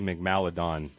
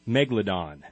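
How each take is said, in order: First: An extra 'm' sound comes after the first syllable. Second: The second syllable starts with an 'l' sound. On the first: The speaker calls it wrong. "which I normally say Megmaladon" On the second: The speaker calls it right. "and I always say it wrong"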